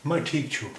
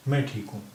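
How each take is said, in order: First: छू said with a clear ending "u", not छा; Nepali pronunciation. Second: Said in the usual way. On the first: Shown as a demonstration. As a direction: say "मैं ठीक छू" ending on a rounded छू. ("छू" को उ की आवाज़ के साथ बोलिए) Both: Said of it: "मैं ठीक छू" होता है".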